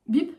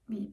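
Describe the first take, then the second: First: The beep sounds surprised. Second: The beep sounds sad.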